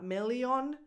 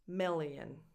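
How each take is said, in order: First: The final vowel is a full rounded O. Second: The final vowel is a weak schwa. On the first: The speaker calls it wrong. "Not million" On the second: The speaker calls it right. "It's just a schwa"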